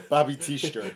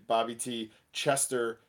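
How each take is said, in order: First: "Teester" squeezed to TEESH-ter; "Teester", dropping the chester and shire; local shortened pronunciation. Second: "T Chestershire" with every part sounded; "T Chestershire" read as it is spelt; spelt-out pronunciation. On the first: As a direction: say "Teester" in two quick syllables. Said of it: "and it would be said". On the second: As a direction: say "Chestershire" fully, CHESTER-shire. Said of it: "but it would, it would be". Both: Shown as a demonstration.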